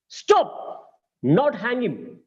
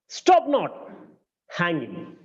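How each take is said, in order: First: There is a pause after stop. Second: There is a pause after not.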